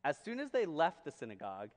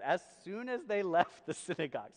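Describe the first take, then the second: First: Said in the usual way. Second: "as soon as" lifted and emphasized; stress on AS SOON AS. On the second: Shown as a demonstration. Preacher pointing congregation to the word, stressed "as soon as". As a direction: lean hard on "as soon as". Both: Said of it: "now look at that word".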